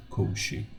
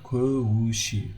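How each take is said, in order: First: "kovushi" without the u, softer; dropped second vowel. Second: Slow "kovushi" with every vowel kept; full second vowel. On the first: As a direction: say "kovushi" as two syllables, kov-shi. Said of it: "but kovushi". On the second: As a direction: draw out "kovushi" as ko-vu-shi. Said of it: "not kovushi". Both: Shown as a demonstration.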